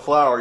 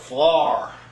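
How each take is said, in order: First: It is said in the speaker's usual accent. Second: It is said in a Pennsylvania Dutch accent.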